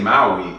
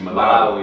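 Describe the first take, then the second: First: The name is said as Maui. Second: The name is said as Malawi. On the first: The speaker calls it wrong. "I used to say" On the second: The speaker calls it right. "it's actually"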